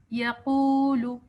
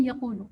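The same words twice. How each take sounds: First: Slow یقولو with the وو stretched two beats; long waw. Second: یقولو with the و vowel short; rushed reading. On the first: Teacher showing the stretched waw, slowly. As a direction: draw out the و in یقولو. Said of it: "واو کو دو حرکت تک ہم نے لمبا کیا". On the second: Teacher showing the hurried wrong way. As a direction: clip the و in یقولو. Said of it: "جلدی میں ہم اس کو پڑھتے ہیں". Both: Shown as a demonstration.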